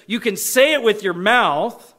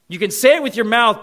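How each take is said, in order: First: Said in the usual way. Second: "say" hit and said louder; stress on say. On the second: Shown as a demonstration. Preacher to congregation, punching "say". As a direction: lean hard on "say" in "You can say it with your mouth". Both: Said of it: "It's interesting the way he says it here".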